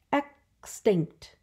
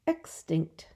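First: "Extinct" split into two beats; syllable by syllable. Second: Said in the usual way. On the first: Shown as a demonstration. Teacher showing two syllables, "Extinct" broken in two. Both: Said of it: "Two syllables".

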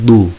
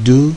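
First: "du" with a hard, emphatic Arabic d; hard, heavy d. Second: "du" with a soft, light Arabic d; soft dal. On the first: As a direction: hit "du" hard, as the heavy consonant. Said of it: "ba ise serttir". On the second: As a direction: say "du" softly articulated, as the light dal. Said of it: "Dal yumuşak". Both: Shown as a demonstration.

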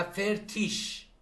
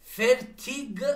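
First: Slow demo of فرتیش with an sh ending; final -ig as ish. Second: Slow demo of فرتیگ with a hard g ending; final -ig as hard g. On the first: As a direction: end فرتیش on a soft sh. (تلفظ شمرده فرتیش با «ش» در آخر) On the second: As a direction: end فرتیگ on a released g. (تلفظ شمرده فرتیگ با «گ» در آخر) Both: Shown as a demonstration.

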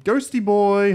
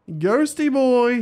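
First: Said in the usual way. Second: Slow, higher sing-song call; coaxing a hiding pet out; drawn-out call. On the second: Real, not acted. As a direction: stretch the call out slowly. Calling for the missing ghost.

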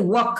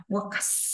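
First: Said in the usual way. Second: "works" with a long hissed s after the k; hissed final s. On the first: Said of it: "là có chữ K". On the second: Shown as a demonstration. Teacher showing students the hiss, "works" with long final s. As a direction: draw out the s at the end of "works". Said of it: "Xì đây".

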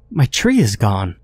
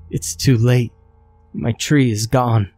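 First: Frail creature. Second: A hint of fragile resignation; frail creature. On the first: Creature mourning her lost tree, lightly voiced frail. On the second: Creature telling the man it is too late, lightly frail. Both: A narrator's reading. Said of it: "Her voice was frail and shaky".

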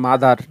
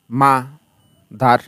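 First: Said in the usual way. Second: মাদার broken into মা, pause, দার; split into syllables. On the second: Shown as a demonstration. Teacher showing students the two syllables of মাদার, said separately. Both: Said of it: "অর্থাৎ মা একটা শব্দাংশ".

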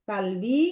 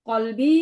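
First: কালবি with a light k and an open a; Arabic kalbi, dog; kaf in kalbi. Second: কলবি with a throaty q and a short o; Arabic qalbi, heart; qaf in qalbi. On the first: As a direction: say কালবি with a front k. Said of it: "এটা যদি কাফ দিয়ে পড়ো". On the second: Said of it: "ক না দিয়ে ক". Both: Shown as a demonstration.

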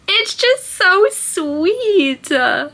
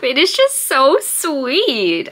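First: Very slow, much higher, crying through a laugh. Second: Slow, choked-up words, close to tears; holding back tears over a sweet book; tearing up. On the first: Vlogger crying over a sweet book, voice breaking. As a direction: voice breaking into tears. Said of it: "I was tearing up". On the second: Vlogger moved to tears by her book, choked up. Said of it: "I'm, like, tearing up". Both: Real, not acted.

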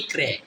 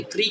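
First: "ক্রে" with hard k and e vowel; CRE read as "kre". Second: "ক্রি" with hard k and ee vowel; CRE read as "kri". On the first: Teacher shows second reading of CRE, e sound in "ক্রে". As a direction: say "ক্রে", falling, ending in e. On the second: Teacher shows first reading of CRE, ee sound in "ক্রি". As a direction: say "ক্রি", rising, ending in ee. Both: Shown as a demonstration. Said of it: "C আর ই কি পড়লাম?".

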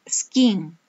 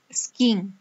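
First: Whispered drill word. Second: Said in the usual way. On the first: Shown as a demonstration. Teacher modelling skiing for pupils, whispered. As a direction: breathe the word skiing without voice. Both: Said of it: "teacher drilling vocabulary word".

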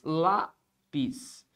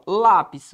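First: "Lápis" split into two syllables, pause between. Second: Said in the usual way. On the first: Shown as a demonstration. Teacher shows what lápis contains, syllable by syllable. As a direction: say "Lápis" slowly as LÁ, pause, PIS. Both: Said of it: "O que é que eu tenho em lápis?".

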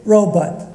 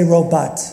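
First: Robot as RO-but; robot, reduced second syllable; minority pronunciation of robot. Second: Robot as ro-BAHT; robot, open second vowel; Jersey pronunciation of robot. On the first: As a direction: say robot with a short "but" ending. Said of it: "raised their hand and said". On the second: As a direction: say robot with a full "bot" ending. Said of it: "From Jersey, they say". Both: Shown as a demonstration.

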